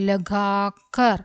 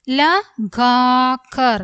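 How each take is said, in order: First: Said in the usual way. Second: Slow reading, each syllable apart. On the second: Shown as a demonstration. Teacher going over the word for learners, syllable by syllable. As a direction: separate and stretch every syllable.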